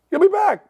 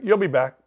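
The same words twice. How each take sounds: First: Much higher, emphatic repeat; high-pitched retort. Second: Said in the usual way. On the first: Retold or imitated. Host answering listeners who say they're done, high-pitched retort. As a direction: jump the pitch right up on the comeback.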